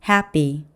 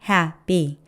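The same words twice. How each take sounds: No difference in how they are said.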